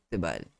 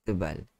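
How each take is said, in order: No difference in how they are said.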